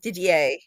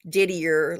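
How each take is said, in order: First: The name is pronounced the French way. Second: The name is pronounced the English way. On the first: The speaker calls it right. "that's the correct French French pronunciation of his name" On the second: The speaker calls it wrong. "It's not Didier like it says"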